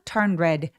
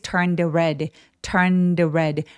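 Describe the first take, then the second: First: It is fast, and the d is dropped. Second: It is slow, with a light d sound. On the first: "빠르게 발음하면 turn red 라고 할 수 있고요" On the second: "천천히 정확하게 다 발음해보자면 ... 아주 가볍게 d 라고 소리를 내주시면"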